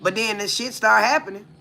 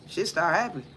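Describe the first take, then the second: First: Said in the usual way. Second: Softer repeat of "Shit start happening" under the breath; murmured afterthought "Shit start happening"; quiet echo. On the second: Shown as a demonstration.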